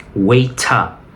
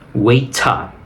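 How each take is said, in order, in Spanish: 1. Se dice con acento británico. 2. Se dice con acento británico.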